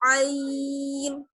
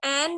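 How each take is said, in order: First: It is said drawn out from the throat, aa-in. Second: It is said short, like en. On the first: The speaker calls it right. "हमें क्या पढ़ना है" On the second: The speaker calls it wrong. "एन नहीं पढ़ना होता है"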